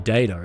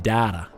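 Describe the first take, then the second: First: Data is said with a non-Australian pronunciation. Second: Data is said with an Australian pronunciation. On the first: The speaker calls it wrong. "not the data" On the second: The speaker calls it right. "It's the data ... that's what it is in Australia"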